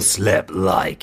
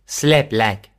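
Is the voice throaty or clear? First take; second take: throaty; clear. First: It is said in a throaty voice. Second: It is said in a clear voice.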